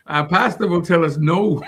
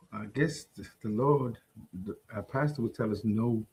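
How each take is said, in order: First: Full-voiced answer broken by chuckles; laughing repeat. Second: Very soft, low, hesitant answer; low mumble. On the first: Repeating the answer for the co-host, laughing. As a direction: speak up through laughter. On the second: Answering whether believers may be hostile, low mumble. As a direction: answer reluctantly, almost under your breath, pitch dropped. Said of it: "What, what'd you say". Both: Real, not acted.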